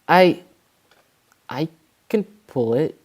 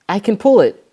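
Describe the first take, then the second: First: It is said quietly and hesitantly. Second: It is said louder and more firmly.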